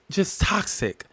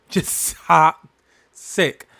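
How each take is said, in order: First: Said in the usual way. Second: Just toxic stretched very slow, each word leaned on; drawn-out emphasis. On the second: Shown as a demonstration. Speaker repeating her point, drawn-out emphasis. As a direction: drag out Just toxic for weight.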